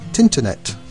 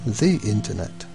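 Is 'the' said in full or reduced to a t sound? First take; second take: reduced; full. First: 'The' is reduced to a t sound. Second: 'The' is said in full. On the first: "A recent northern pronunciation which sounds quite funny" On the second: "instead of the internet"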